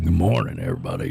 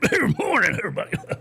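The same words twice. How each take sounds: First: The voice is deep and full. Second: The voice is thin and weak. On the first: The speaker is young with a strong radio voice. "you got that deep voice" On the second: The speaker is older and the voice has worn down. "as you get older, that's not"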